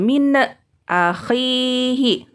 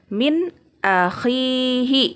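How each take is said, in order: First: The n sound is bounced with a little echo. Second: The n sound is cut off before the next word. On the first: "tidak boleh nunnya dipantulkan" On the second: "Atau diputuskan"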